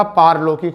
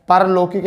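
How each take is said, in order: First: पारलौकिक with a long aa on पा; the correct पारलौकिक, long first vowel; correct form shown. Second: परलौकिक with a short a on प; the incorrect परलौकिक, short first vowel; wrong form shown. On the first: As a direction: stretch पा in पारलौकिक. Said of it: "पारलौकिक होता है बेटा". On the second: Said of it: "परलौकिक नहीं होता". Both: Shown as a demonstration.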